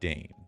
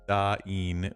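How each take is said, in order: First: The name is said as one syllable. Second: The name is said as two syllables. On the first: The speaker calls it wrong. "It's definitely not Dane" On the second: The speaker calls it right. "typically pronounced with two syllables"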